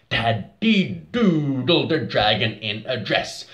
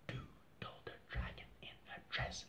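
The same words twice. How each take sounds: First: Fuller voice than the whisper; louder. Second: Whispered softly on the beat. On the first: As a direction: say it louder now. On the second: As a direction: breathe it out in a whisper. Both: Shown as a demonstration.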